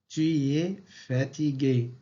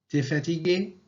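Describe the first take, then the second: First: The vowel of 'tu' is kept. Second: The vowel of 'tu' is dropped. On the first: "À l'écrit, on dit" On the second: "À l'oral, on dit"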